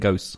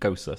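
First: The word ends in a consonant, like 'ghost'. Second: The word ends with an extra vowel sound. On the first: The speaker calls it wrong. "He was saying ghost" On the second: The speaker calls it right. "Pronunciation. Gosa"

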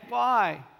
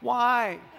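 First: It is said in a growling, demonic voice. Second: It is said in a normal voice.

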